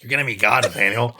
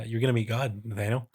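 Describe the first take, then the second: First: Loud, badly faked impression of a friend; big, booming put-on character voice; Sadie. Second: Lightly put-on cadence; a hint of a character cadence; measured cadence. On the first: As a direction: belt it out as a bad impression. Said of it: "like, a Sadie". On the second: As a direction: say it in a measured, mildly theatrical cadence. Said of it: "maybe this kind of cadence".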